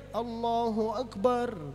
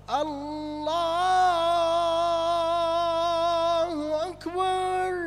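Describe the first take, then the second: First: It is said short and quick. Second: It is drawn out long.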